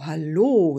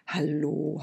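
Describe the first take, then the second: First: Louder, falling greeting; kindly old woman calls to the girl, louder; louder deep old woman's hello. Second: Quiet, gentle greeting; kindly old woman greets a sleepy girl, gently; soft deep old woman's hello. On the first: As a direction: call it out warmly. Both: Acted. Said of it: "mit einer tiefen und warmen Stimme".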